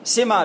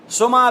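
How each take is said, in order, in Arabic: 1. الحركة الأولى كسرة، مثل sima. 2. الحركة الأولى ضمة، مثل suma. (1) "سما بألف كسرة" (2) "سما بألف بضمة"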